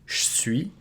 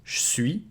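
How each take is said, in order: First: The E is devoiced and nearly dropped. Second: The E is devoiced and nearly dropped.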